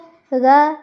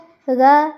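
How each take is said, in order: First: It is said with open lips, sounding open. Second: It is said with open lips, sounding open.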